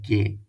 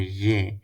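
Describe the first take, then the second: First: It starts with a hard g consonant. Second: It starts with a buzzing, vibrating consonant. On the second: "make a vibration ye"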